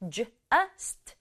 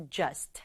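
First: "just" broken into J, then "ust"; sounded out in parts. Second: "just" joined up as one syllable; blended into one. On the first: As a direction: sound out "just" slowly, piece by piece. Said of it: "붙여서 just". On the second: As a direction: say "just" in a single connected beat. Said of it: "붙여서". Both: Shown as a demonstration.

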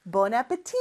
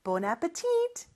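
First: "appétit" with a silent final T; French pronunciation. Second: "appetit" with the final T sounded; American pronunciation. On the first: Teacher reviewing bon appétit for learners, final T left silent. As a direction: end "appétit" on a long open "tee". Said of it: "요거 발음 어떻게 된다 그랬죠?". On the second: Teacher giving learners the American variant, final T pronounced. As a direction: finish "appetit" on a crisp T. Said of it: "미국에서는 마지막 T까지 발음해서". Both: Shown as a demonstration.

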